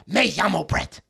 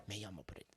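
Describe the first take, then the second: First: Put-on throaty schoolkid Spanish accent, voice in the back of the throat; mock Spanish-class accent. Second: Very soft, low, restrained imitation; understated, unaccented Spanish. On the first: Mocking classmates who took Spanish, put-on Spanish accent. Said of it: "started getting that accent". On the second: Showing how it never sounded at school, very soft understated delivery. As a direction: drop right down to a tiny, modest murmur. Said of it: "It was never".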